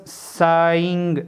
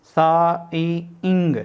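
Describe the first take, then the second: First: Drawn-out vowels. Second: "saying" very slowly as सा, ई, इंग; sound by sound. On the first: Teacher introducing a triphone word, "saying" long and stretched. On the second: Teacher showing a triphone, "saying" split into three slow sounds. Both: Shown as a demonstration. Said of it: "ये हमारे पास जो है triphone है".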